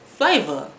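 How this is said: The final R is dropped, ending in ah. "they say flavor instead of"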